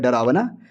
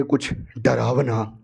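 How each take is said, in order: First: Low "डरावना" with a rising question ending; questioning echo. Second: Slow, low "डरावना", falling at the end; ominous retelling. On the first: The others ask back about the scary thing, questioning echo. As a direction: echo "डरावना" as a puzzled question, lifting the end. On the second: Character tells the others she saw something scary, ominous slow reveal. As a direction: draw out "डरावना" low and ominously, ending downward. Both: Retold or imitated.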